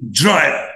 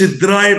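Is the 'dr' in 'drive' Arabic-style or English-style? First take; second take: English; Arabic. First: The dr is said the English way. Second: The dr is said the Arabic way. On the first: The speaker calls it right. "بنطقها كده درايف" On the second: The speaker calls it wrong. "ما نقولش درايف"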